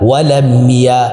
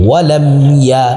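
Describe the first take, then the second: Both takes have the same delivery.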